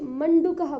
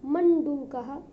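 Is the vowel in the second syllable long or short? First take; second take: short; long. First: The second-syllable vowel is short. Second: The second-syllable vowel is long. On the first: The speaker calls it wrong. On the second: The speaker calls it right.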